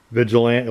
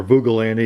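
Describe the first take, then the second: First: Said in the usual way. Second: "Vugilanti" read as misspelled, with oo and hard g; misspelled name. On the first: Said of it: "It was misspelled". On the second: Shown as a demonstration. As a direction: say "Vugilanti" as VOO-guh-LAN-tee. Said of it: "It said Vugilanti instead of Vigilante".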